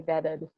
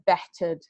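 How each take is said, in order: First: The middle t sounds like a d, transatlantic style. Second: The middle t is crisp, British style.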